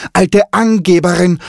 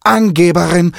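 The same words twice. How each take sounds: First: Even higher squawk with Angeberin hammered; mocking parrot. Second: High, loud squawking taunt; mocking parrot. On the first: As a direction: jeer it louder, leaning on Angeberin. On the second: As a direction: tease her like a cheeky parrot. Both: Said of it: "spottete Kiki".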